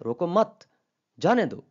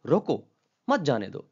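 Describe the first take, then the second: First: "रोको मत" together and rising, pause, then "जाने दो"; loud "रोको मत" as one order, then a falling "जाने दो"; pause after मत. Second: "रोको" alone as an order, then run "मत जाने दो"; pause after रोको. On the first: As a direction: break only after "मत". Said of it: "लेकिन क्या है कि अगर वो कहता है". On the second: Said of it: "इसका मतलब है कि इस, उसको". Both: Shown as a demonstration.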